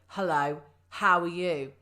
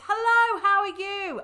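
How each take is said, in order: First: Slow, deep and tight, with an aggressive edge. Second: Bright and lively, with a warm, pleased tone. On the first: The speaker dislikes the person greeted. "through gritted teeth and make it slower um, and maybe deeper so it's a bit more aggressive" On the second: The speaker is delighted to see the person again. "if it's someone that I really like that I haven't seen for ages"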